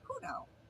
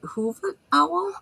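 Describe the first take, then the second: First: No V sound is pronounced in the name. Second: A V sound is pronounced in the name. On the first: The speaker calls it right. "It's silent" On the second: The speaker calls it wrong. "there's a little V in there. So is it Hoover Owl?"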